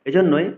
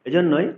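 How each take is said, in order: The two takes are said the same way.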